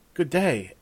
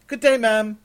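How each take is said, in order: First: Slightly raised, simple polite reply; guest returning a greeting. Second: High, loud formal servant voice; servant's greeting. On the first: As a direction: answer the greeting in a modest voice. Raven returns the servant's greeting. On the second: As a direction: announce yourself loudly, pitched well up. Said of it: "said a servant to Raven". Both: Acted.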